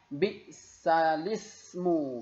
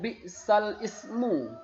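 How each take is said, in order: First: The l links straight into ismu, no catch. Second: The glottal catch before ismu is kept. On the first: The speaker calls it right. "harokat hamzah ya, itu dipindahkan ke huruf yang sukun sebelumnya" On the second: The speaker calls it wrong. "tidak dibaca dengan bi'sal ismu"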